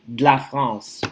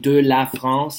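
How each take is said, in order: First: The vowel of 'de' is dropped. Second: The vowel of 'de' is fully pronounced. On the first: "you'd say de la France ... You have a D apostrophe" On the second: "instead of saying de la France"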